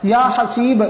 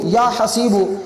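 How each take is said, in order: First: The name ends on the consonant 'b'. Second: The name ends with a final 'u' vowel. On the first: "इस तरह भी इसको पढ़ सकते हैं" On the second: "इसको या हसीबू भी पढ़ सकते हैं"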